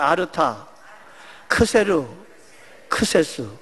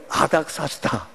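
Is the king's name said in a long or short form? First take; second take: long; short. First: The name is said in eight syllables, three groups. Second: The name is said in five short syllables. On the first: This is the accurate original pronunciation. The speaker calls it right. "정확한 발음은 아르타 크세르 크세스" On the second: This is how older translators heard the name. The speaker calls it wrong. "들어보니까 뭐예요? 아닥사스다 그렇게 들려가지고"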